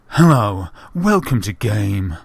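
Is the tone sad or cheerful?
sad. It is said in a sad voice.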